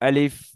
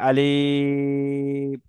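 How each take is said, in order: First: The word is said quickly with a short vowel. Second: The word is drawn out with a long vowel. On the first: The speaker calls it right. "এবার ঠিক আছে?" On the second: The speaker calls it wrong. "এটাও ভুল, লম্বা টান হবে না।"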